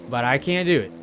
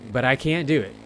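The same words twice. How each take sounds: The two takes are said the same way.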